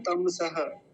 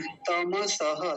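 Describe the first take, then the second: First: तमसह squeezed to "tam-saha"; halved ma. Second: तमसह slowly as ta-ma-sa-ha; full ma. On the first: Teacher showing what some people say, halved-ma mistake. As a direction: drop the vowel after म in तमसह. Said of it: "कुछ लोग म को आधा करके". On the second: Teacher correcting the wrong pronunciation, slow full-vowel demo. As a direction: sound the whole म in तमसह, drawn out. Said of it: "तम ऐसा बोलेंगे". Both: Shown as a demonstration.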